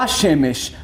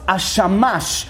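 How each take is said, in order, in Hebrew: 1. התנועות הן e-e: hashemesh. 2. התנועות הן a-a: hashamash. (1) "ולא השמש" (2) "צריך לגרוס השמש"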